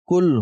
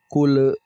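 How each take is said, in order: First: The final l is cut short without echo. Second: The final l ends with a small echoing bounce. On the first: The speaker calls it right. "Kita cukup disukun saja" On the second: The speaker calls it wrong. "tidak dipantulkan. Contohnya qul tidak boleh"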